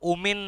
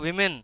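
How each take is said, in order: First: The word starts with an 'oh' sound. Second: The word starts with a 'wih' sound. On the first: It sounds like a word for evil forces. The speaker calls it wrong. "কথাটা ওমেন নয়" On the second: It refers to women. The speaker calls it right. "কথাটা উইমেন"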